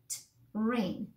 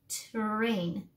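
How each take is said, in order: First: The first sound is separated by a pause. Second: The sounds run together without a pause. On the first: "breaking these words up" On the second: "And then we blend it together"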